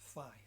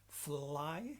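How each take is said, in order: First: The L sound is left out. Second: The L sound is clearly pronounced. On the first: The speaker calls it wrong. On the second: The speaker calls it right. "push the tongue against the top teeth"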